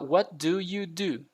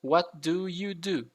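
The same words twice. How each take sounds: The two takes are said the same way.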